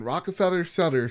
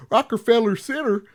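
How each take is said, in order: First: "Rockefeller Center" garbled, consonants muddled in passing; tongue slip. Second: "Rockefeller Center" pitched up and sounded out clearly; careful correction. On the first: Real, not acted. Host slips while telling a story, fumbled "Rockefeller Center". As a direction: stumble loosely over "Rockefeller Center". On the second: Shown as a demonstration. Host fixes a slip, overdone clear "Rockefeller Center". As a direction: pronounce "Rockefeller Center" deliberately, making a show of it. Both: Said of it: "What did I say there?".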